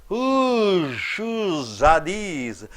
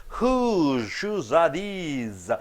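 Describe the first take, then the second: Both takes have the same delivery.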